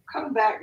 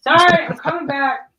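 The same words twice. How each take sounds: First: Said in the usual way. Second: Called out, higher and louder; loud apology on returning; loud call back. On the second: Real, not acted. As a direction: shout it back to the room. Returning to stream, calling out.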